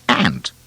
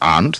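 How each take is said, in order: First: The vowel sounds like the one in cat. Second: The vowel sounds like the one in father. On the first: This is how some people in the USA say it. The speaker calls it wrong. "they call it ant" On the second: This is the proper way to say it. The speaker calls it right. "Instead of aunt"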